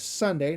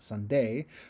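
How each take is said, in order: First: The stress is on the first syllable. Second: The stress is on the second syllable. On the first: The speaker calls it right. "I'm going to put more emphasis on the S in sun" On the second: The speaker calls it wrong. "instead of uh, emphasizing the D, D in day"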